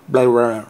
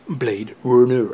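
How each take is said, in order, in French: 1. Le titre Blade Runner est prononcé à l'américaine. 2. Le titre Blade Runner est prononcé à la française.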